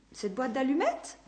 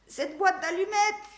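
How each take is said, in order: First: Echoing question. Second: Much higher grating exclamation on "Cette boîte d'allumettes"; sudden pained realisation, rasped; grating cry. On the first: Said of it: "dit-elle en écho". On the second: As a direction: grind out the words in pain. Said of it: "grinça-t-il". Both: Acted.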